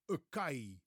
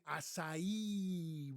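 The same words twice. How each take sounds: First: "acai" said with a hard k, "uh-KAI"; "acai" like "a kai", k in the middle; mispronounced acai. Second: "acai" as ah-sah-EE, last syllable stressed; correct acai pronunciation. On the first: Retold or imitated. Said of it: "most people that I've heard pronounce this berry say". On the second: Shown as a demonstration. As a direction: slowly draw out "acai" with an s sound, ah-sah-EE. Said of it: "with the stress on the last syllable".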